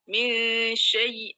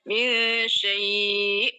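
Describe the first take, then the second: First: The final sound is doubled and pressed hard. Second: The vowel is held for a long count. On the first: "kita ganti sukunnya syai ini dengan syiddah, kemudian kita tekan" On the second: "empat harokat"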